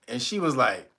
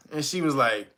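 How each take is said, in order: Both takes have the same delivery.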